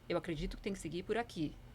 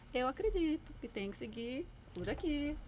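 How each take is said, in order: First: The voice falls at the end. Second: The voice rises at the end.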